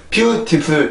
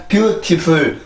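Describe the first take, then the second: First: Beautiful with a clear strong first beat; stressed demo. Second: Flat, even beautiful with no strong beat; beautiful without its stress pattern; wrong stress demo. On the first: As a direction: hit BEAU in beautiful, let -tiful fall away. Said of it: "beautiful 이렇게 가는 언어입니다". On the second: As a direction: say beautiful evenly, every syllable the same weight. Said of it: "이렇게 가는 언어가 아니라". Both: Shown as a demonstration.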